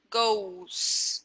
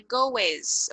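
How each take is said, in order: First: GOES as one syllable with a simple S sound; correct pronunciation. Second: GOES broken into two syllables, go-ez; wrong pronunciation. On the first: Teacher correcting the mistake, GOES in one syllable, no extra E. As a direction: GOES with a long O straight into the ending. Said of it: "Só botar o S". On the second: Teacher showing what to avoid, GOES said as go-ez. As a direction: add a sounded E to GOES, go-ez. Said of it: "Não é goes". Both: Shown as a demonstration.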